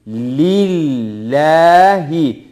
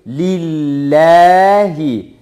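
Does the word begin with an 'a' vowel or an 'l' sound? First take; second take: l sound; l sound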